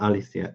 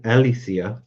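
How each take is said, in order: First: "Alicia" starting with an A sound, falling at the end; pronounced with an A. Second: "Alicia" starting with an E sound, ending on a rise; pronounced with an E. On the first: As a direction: say "Alicia" with an opening A, not E. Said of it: "not Alicia". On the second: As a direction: say "Alicia" with an opening E, as in Ellie. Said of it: "similar pronunciation, but with an E". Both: Shown as a demonstration.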